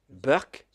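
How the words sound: The word begins with a B sound, Indian-style.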